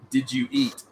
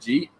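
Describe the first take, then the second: First: Each word is said separately and fully. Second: The words blur together into one short syllable. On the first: "I went, did you eat?" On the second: "I just said Jeep"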